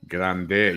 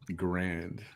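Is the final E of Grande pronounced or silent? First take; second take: pronounced; silent. First: The word ends with a pronounced final vowel. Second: The word ends without a final vowel sound. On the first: This is the Spanish way of saying it. "In Spanish, it's Rio Grande. Grande, you say the E" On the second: This is the English way of saying it. "In English, you don't say the E"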